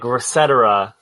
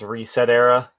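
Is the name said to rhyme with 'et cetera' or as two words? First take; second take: et cetera; two words. First: It is said as one word rhyming with 'et cetera'. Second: It is said as two words, 'reset' and 'era'. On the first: "like et cetera" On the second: "I'm pretty sure it's reset era"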